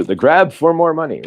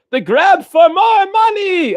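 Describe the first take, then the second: First: Said in the usual way. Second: High, slow, hammed-up shout; movie parody voice. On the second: Mocking money-grabbing movie sequels, high cartoonish shout. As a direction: stretch it out in a high character voice.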